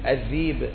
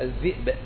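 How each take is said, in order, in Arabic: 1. تُسهَّل الهمزة فتصير حركةً لينة. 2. تُنطق الهمزة كاملةً، همزةً واضحة. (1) "هكذا ينطق بعض العرب السماء تسهيل" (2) "وبعض العرب يحقق الهمزة"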